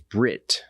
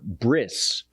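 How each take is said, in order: First: The word ends with a t sound. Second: The word ends with an s sound. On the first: This is the biblical Hebrew pronunciation. "but biblical Hebrew says Brit" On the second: This is the Orthodox pronunciation. "The Orthodox say uh"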